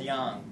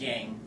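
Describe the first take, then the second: First: Yang is said with a Chinese-style pronunciation. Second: Yang is said with an English-style pronunciation. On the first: The speaker calls it right. "that's called yang" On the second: The speaker calls it wrong. "which we mispronounce here as yang"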